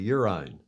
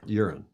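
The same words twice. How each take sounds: First: It is said in a put-on British accent. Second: It is said in a plain American accent.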